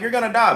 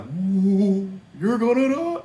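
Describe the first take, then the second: First: It is said in a calm, cool tone. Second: It is said in a spooky, scary tone.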